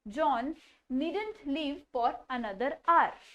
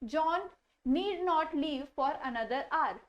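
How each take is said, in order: First: 'Need not' is shortened into one syllable. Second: 'Need not' is said as two full words. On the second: "Need not"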